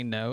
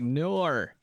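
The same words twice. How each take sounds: First: Said in the usual way. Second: "Nor." said as an Aussie would, with an R added to the end of no; mock Australian "Nor." with a tacked-on R; Aussie accent. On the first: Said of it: "It's like they say no". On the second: Streamer mocking Aussies, who she loves, saying no in an Australian accent. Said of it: "and they're like".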